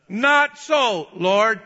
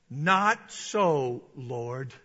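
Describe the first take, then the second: First: Loud, high defiant refusal. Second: Said in the usual way. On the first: Acted. Peter telling God no, loud defiant refusal. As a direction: tell God no at full voice. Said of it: "He's telling God no". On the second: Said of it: "but Peter said".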